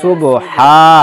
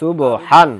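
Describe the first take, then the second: First: The word ends with a long a. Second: The word ends with an n sound.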